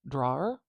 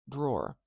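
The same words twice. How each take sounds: First: Drawer? as draw-er, rising like a question; spelling-based drawer. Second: Drawer. as one syllable, rhyming with door; actual pronunciation. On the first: Teacher testing the spelled form of drawer. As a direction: try drawer the way it's spelled. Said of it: "Doesn't it look like drawer". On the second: Teacher giving the real pronunciation. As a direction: say drawer the natural way. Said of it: "spelled a little differently than it's pronounced". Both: Shown as a demonstration.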